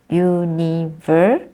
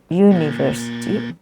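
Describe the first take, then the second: First: "university" broken up, leaning on VER; stress third syllable. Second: "university" without the stress on VER; misplaced stress. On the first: Teacher shows students the right stress, stress third syllable. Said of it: "the third syllable". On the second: Teacher shows what many people say, misplaced stress. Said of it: "many people don't do that". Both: Shown as a demonstration.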